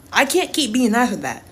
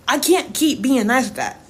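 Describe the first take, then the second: No difference in how they are said.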